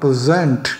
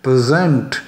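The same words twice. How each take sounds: Both takes have the same delivery.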